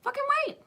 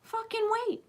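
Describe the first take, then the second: First: Higher emphatic plea. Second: Emphatic high plea. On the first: Speaker pressing her audience harder, very high. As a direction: push fucking up high again. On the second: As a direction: stretch out fucking, pleading high. Urging listeners to hold back. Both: Acted.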